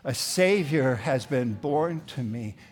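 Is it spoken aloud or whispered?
aloud. It is spoken aloud in a full voice.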